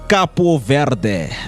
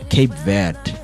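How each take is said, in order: First: The first word is said with two syllables, Capo. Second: The first word is said with one syllable, Cape. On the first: "the initial pronunciation, because they were colonized by French, it's pronounced Capo Verde" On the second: "it's the English way of pronouncing Cape Verde"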